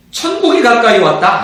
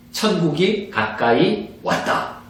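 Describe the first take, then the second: First: Said in the usual way. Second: 천국이 가까이 왔다 said slowly and evenly, words spaced out; slow, measured 천국이 가까이 왔다; slow proclamation. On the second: Shown as a demonstration. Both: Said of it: "이렇게 전하라는 거예요".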